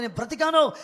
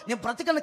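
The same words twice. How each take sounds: First: Loud, raised cry of 'I'm alive'; joyful cry. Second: Said in the usual way. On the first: Retold or imitated. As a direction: call it out like a survivor. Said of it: "అరవాలనిపిస్తా ఉంది". (గట్టిగా, పై స్థాయిలో అరుపు) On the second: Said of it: "కేకలు పెట్టాలనిపిస్తుంది".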